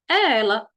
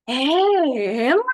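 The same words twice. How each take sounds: First: It is said as a plain, firm statement. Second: It is said as an astonished, exclaiming question. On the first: The speaker is simply affirming who it is. "Aí alguém afirmando" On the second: The speaker cannot believe it is her. "Eu vou perguntar e exclamar ao mesmo tempo"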